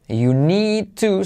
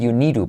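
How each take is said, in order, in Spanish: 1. La d y la t se pronuncian como oclusivas nítidas. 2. La d y la t se vuelven sonidos de r suave, vibrante simple.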